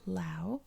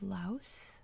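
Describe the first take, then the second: First: The word ends without an S sound. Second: The word ends with an S sound. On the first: This is how most people, including locals, say it. "pronounce it Lao" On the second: This is the American English pronunciation. "Laos with the S sound at the end"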